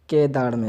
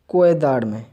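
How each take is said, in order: First: The first syllable is said as plain 'ke'. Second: The first syllable is said with a 'kwe' glide. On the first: The speaker calls it right. "केदार में इसको पढ़ना है" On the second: The speaker calls it wrong. "हमने क्या पढ़ा था, कोएदाड़ में, जो कि गलत है"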